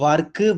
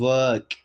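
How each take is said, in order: First: An extra vowel follows the final consonant. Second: The word ends cleanly on the consonant. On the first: The speaker calls it wrong. "நம்ம தப்பா சொல்றோம்" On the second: The speaker calls it right. "அது actually ஒர்க்கு கிடையாது ஒர்க்"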